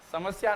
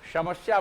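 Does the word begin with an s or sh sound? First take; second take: s; sh. First: The word begins with a plain s sound. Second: The word begins with an sh sound. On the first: "समस्या में दंत सकार है" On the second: "समस्या बोलते थे, तालव्य वाला"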